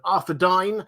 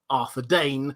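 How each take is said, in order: First: The last syllable sounds like 'dine'. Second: The last syllable sounds like 'dane'.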